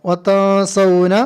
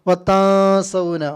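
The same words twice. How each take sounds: The two takes are said the same way.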